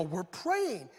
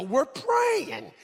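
First: Said in the usual way. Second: Higher, louder mock protest; comically emphatic, raised-voice answer; insistent reply. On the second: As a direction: push it out loud and high in defense. Insistent second reply to wife.

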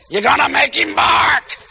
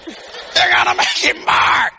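First: Warning shout. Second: Mock warning shout. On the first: Retold or imitated. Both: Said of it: "Paris said".

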